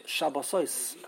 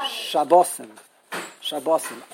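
First: Shabbosois as sha-baw-SOYS; Hebrew plural pronunciation. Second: Shabbosim as sha-BAW-sim; Yiddish plural pronunciation. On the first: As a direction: lean on the final "oys" of Shabbosois. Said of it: "is Hebrew. In plural". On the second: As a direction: stress the middle of Shabbosim. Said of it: "And Yiddish". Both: Shown as a demonstration.

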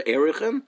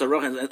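First: Erichin with an opening "air"; Erichin pronunciation. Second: Arochin with an opening "ah"; Arochin pronunciation. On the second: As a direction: say Arochin as ah-RAW-khin. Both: Shown as a demonstration. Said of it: "That's how it's pronounced".

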